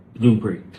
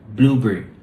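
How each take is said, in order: The two takes are said the same way.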